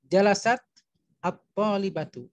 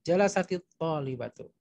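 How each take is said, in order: First: Jalasat ends in a bare t, with no vowel. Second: Jalasat takes an 'i' vowel linking it onward.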